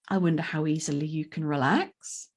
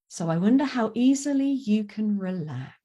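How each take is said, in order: First: The voice rises at the end like a question. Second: The voice falls at the end like a command.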